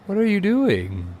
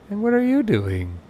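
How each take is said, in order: First: High, slow exasperated question, stress on doing. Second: High exasperated question, stress on you. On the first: Gamer scolds idle passengers at the gate, exasperated high plea. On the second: Gamer scolds another idle passenger, high exasperated stress on you. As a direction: turn to the next one and hit you. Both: Real, not acted.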